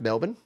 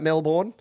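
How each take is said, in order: First: It is said the local way. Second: It is said the way it is spelled. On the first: The speaker calls it right. "it is pronounced Melbourne" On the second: The speaker calls it wrong. "I know it looks like Melbourne"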